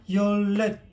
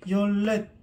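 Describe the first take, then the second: No difference in how they are said.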